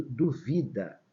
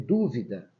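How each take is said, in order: First: Duvida pronounced duVIda, middle syllable strong; stress on VI. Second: Dúvida with first syllable strong; stress on DÚ. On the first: Teacher reading the unaccented verb, duvida stressed on VI. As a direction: lean slowly on VI in duvida. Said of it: "é verbo também". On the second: Teacher quoting students' reading, dúvida stressed on DÚ. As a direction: hit DÚ in dúvida, then fall away. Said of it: "dúvida é essa aqui que tá acentuada". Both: Shown as a demonstration.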